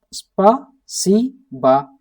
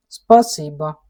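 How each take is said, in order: First: Спасибо drawn out slowly, syllable by syllable; slow demo. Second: Said in the usual way. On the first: Shown as a demonstration. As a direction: stretch out Спасибо for learners. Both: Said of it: "like that".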